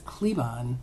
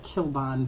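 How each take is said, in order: First: The name starts with the sound 'kle'. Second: The name starts with the sound 'kil'. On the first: The speaker calls it right. "but I think it's Klebon" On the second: The speaker calls it wrong. "I used to call it Kilbon"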